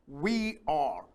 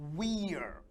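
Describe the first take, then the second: First: It is said as two full words. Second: It is said as one contracted syllable.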